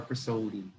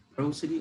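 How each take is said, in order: First: "prosody" as pruh-SOH-dee; stress on second syllable. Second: "prosody" as PROH-sih-dee, stress up front; stress on first syllable. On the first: Teacher checking a word's pronunciation, "prosody" stressed on SO. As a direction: say "prosody" with a long stressed SO in the middle. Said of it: "Does that have pronunciation prosody or prosody". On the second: Teacher checking a word's pronunciation, "prosody" stressed on PRO. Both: Shown as a demonstration.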